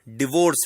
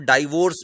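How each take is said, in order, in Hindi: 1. पहला स्वर एक छोटा "ih" है। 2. पहला स्वर "eye" जैसा लगता है। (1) "सही उच्चारण डिवोर्स है।" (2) "कुछ लोग इसको डाइवोर्स भी बोलते हैं, वो गलत है।"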